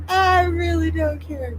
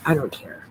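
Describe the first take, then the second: First: I really don't care, high and slow; high drawn-out whine. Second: Said in the usual way. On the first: Real, not acted. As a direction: stretch it into a whiny wail.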